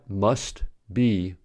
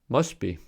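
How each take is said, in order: First: The t at the end of must is pronounced. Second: The t at the end of must is dropped. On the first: The speaker calls it wrong. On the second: The speaker calls it right.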